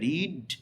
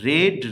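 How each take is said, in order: First: The vowel is long, as in 'reed'. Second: The vowel is short, as in 'red'. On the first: This is the present form of the verb. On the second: This is the past participle form of the verb.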